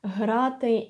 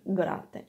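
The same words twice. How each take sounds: First: Грати said "hraty"; soft voiced h. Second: Грати said "graty" with a stopped g; hard g. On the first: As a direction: begin грати on a voiced exhale. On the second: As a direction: begin грати on a firm guh. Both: Shown as a demonstration. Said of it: "how you pronounce the letter".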